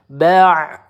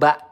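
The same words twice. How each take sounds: First: It ends with a throaty pharyngeal ain sound. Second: It ends with a plain glottal stop. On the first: The speaker calls it right. "hati-hati ain di sini" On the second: The speaker calls it wrong. "tertukar sama huruf hamzah"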